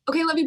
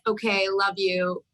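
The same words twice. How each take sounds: First: The phrase is said quickly and offhandedly. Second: The phrase is said slowly and deliberately. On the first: The goodbye is routine and casual. "just the quick like" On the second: The goodbye is heartfelt and meaningful. "we like really take the time to be like"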